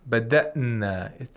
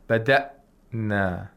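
First: The hamza runs quickly into the n without pause. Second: There is a pause between the hamza and the n. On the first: The speaker calls it right. "It happens quickly" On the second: The speaker calls it wrong. "We don't make a pause in between the hamzatul qatar and the noon. So we shouldn't say bada'na"

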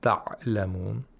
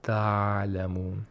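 First: The ain is stopped with a plosive release. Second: The ain is a weak continuous fricative. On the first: "Neither plosives" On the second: "nor weak fricatives"

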